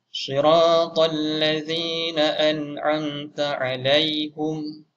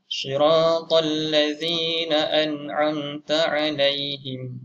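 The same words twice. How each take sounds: First: The last word ends with 'hum'. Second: The last word ends with 'him'. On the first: "haknya berbaris depan" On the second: "ha berbaris bawah"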